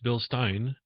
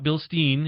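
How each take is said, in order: First: The second syllable rhymes with 'sign'. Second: The second syllable rhymes with 'seen'. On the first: The speaker calls it right. "It's Bill Stein" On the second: The speaker calls it wrong. "It's not Bill Steen"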